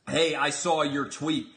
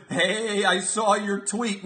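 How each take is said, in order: First: Said in the usual way. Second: Mock menacing. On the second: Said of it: "as if I'm gonna be trembling".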